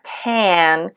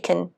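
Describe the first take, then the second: First: The word has its full, unreduced vowel. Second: The word is reduced with a weak vowel. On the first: The speaker calls it wrong. "not can" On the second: The speaker calls it right. "notice the reduction here"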